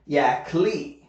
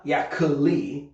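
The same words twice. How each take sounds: First: Yak Lee in two syllables, "yak-lee"; two-syllable name. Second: Yak Lee stretched into three syllables, "ya-kuh-lee"; three-syllable Korean rendering. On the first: Teacher insisting on his real name, two-syllable pronunciation. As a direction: say Yak Lee with no vowel between k and l. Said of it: "my name is actually two syllables". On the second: Teacher showing how Koreans write his name, three-syllable rendering. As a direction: say Yak Lee with an extra vowel after the k. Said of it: "adding three syllables into my name". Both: Shown as a demonstration.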